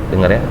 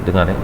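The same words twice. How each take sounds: Both takes have the same delivery.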